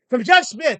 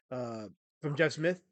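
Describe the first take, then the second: First: "From Jeff Smith!" said loud and high, stress on Jeff; emphatic correction. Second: Said in the usual way. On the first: Shown as a demonstration.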